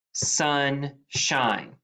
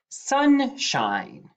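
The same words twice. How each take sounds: First: Said in the usual way. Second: Sunshine said on a high rising pitch; high announced word. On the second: Shown as a demonstration. Teacher announcing the dictation word high and bright. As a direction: sing out Sunshine high to start. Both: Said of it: "Number three".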